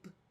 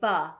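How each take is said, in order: First: The b is clipped with no vowel after it. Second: The b is followed by a short uh vowel. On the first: The speaker calls it right. "We want to say b" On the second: The speaker calls it wrong. "We don't want to say buh"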